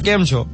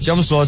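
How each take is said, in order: First: It starts with a 'k' sound and ends 'chho'. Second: It starts with a 'ch' sound and ends 'so'. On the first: This is how people in Bharuch say it. "ભરૂચમાં કેમ છો" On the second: This is how people in Charotar say it. "Actually ચમ છો પણ નથી ચરોતરમાં, ચમ સો છે"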